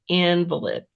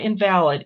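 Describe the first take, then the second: First: The stress is on the first syllable. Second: The stress is on the second syllable. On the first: The speaker calls it right. "it's stress on the N" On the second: The speaker calls it wrong. "It's not invalid"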